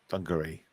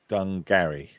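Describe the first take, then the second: First: The word is said quickly, run together. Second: The word is said slowly, in two parts.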